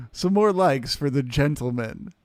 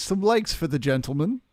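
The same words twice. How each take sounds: First: Louder, upbeat call for likes; rally the chat for likes; hyped shout-out. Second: Raised pitch, likes lifted at the end; higher pleading repeat. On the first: Streamer asks chat for likes for Charles, loud and upbeat. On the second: Streamer repeats the plea to chat, higher and playful. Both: Acted. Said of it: "Yes, please".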